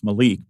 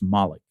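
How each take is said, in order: First: The name is said with an Americanized pronunciation. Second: The name is said with a German-style pronunciation. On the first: This is how Americans tend to say it. "I guess we want to Americanize it. It's Malik" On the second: This is how the player himself says it. "he pronounced it for us Malik"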